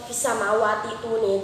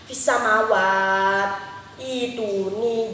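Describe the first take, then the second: First: The words are run together with a linking sound. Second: The words are read separately, with a stop between.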